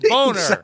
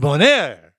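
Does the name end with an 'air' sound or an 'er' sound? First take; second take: er; air. First: The name ends with a short 'er' sound. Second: The name ends with a long 'air' sound. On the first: The speaker calls it wrong. "say it incorrectly" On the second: The speaker calls it right. "welcome to Bonaire"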